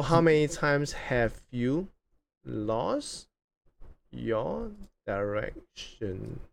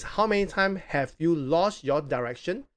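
First: Drawn-out words with long pauses; slow dictation. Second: Said in the usual way. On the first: Real, not acted. Host rereading question while writing it, slow and halting. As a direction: stretch out the last words as if writing along.

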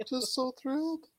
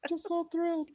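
First: High, gushing mock delight; mock thrilled. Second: Much higher, squeaky mock delight; squealing mock thrill. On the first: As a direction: squeal it with fake rapture. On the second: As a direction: squeak it like an overexcited fan.

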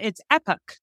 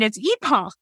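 First: "epoch" said EP-uk, short e; American pronunciation. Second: "epoch" said EE-pock, long ee; English pronunciation. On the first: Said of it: "In America, it's epoch". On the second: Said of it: "In England, it's epoch". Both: Shown as a demonstration.

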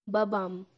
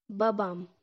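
No difference in how they are said.

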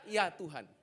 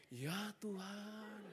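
First: Said in the usual way. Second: "Ya Tuhan" very slow and much softer, reverent; different intonation. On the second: Shown as a demonstration. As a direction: breathe out "Ya Tuhan" slowly and hushed. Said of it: "intonasinya beda". ("Ya Tuhan" diucapkan sangat pelan dan lirih)

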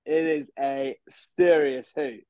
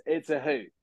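First: Serious said slow and weighty; stress on serious. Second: Said in the usual way. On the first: Shown as a demonstration. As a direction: drag out serious hoot.

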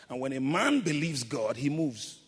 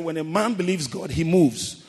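First: Said in the usual way. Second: Louder, driving the point home; preacher repeats it with more force to the congregation, louder; 1 emphatic repeat. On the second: Shown as a demonstration. Preacher repeating his line to the congregation, louder and emphatic. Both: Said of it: "I said".

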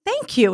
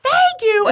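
First: Genuine thank-you, bright and high; a grandmother thanking a stranger, high and sincere. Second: Mocking, sneering thank-you, higher and louder; an angry man mimicking her thank-you, loud and high; sarcastic thanks. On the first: Retold or imitated. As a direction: thank him like you mean it. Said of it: "And I said". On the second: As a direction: throw the thanks back with scorn. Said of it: "he loses his mind".

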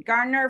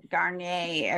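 First: "Garner" the plain English way; anglicized pronunciation. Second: "Garnier" as Gar-nyay, like the brand; French-style pronunciation. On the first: Co-host assigning the lawyers' version of the name, anglicized "Garner". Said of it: "for the lawyer stuff". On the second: Co-host giving the beauty-brand version of the name, French-style "Garnier". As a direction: end "Garnier" on a French "-yay". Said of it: "if you're doing beauty stuff". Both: Shown as a demonstration.

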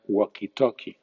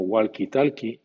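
First: "walkie-talkie" en inglés, sin L, wokie-tokie; English walkie-talkie. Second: "walkie-talkie" a la española, con la L; Spanish-style walkie-talkie. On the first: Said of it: "en inglés suena". (di "walkie-talkie" sin L, a la inglesa) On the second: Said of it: "vulgarmente se llama". (di "walkie-talkie" pronunciando la L) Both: Shown as a demonstration.

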